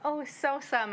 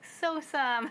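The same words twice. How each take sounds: First: A touch higher, a mock disgusted parent saying the word; parent voicing the word. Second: Much higher, a toddler's imitation of the word. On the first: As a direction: say it like you're teaching a toddler. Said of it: "we'd always be like". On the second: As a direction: copy a little kid saying it with a scrunched face. Daughter makes a face, says it.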